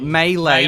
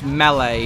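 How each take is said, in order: First: It is said with an American pronunciation. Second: It is said with a British pronunciation. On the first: "for Americans" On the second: "for British"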